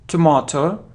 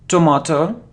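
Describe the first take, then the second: The two takes are said the same way.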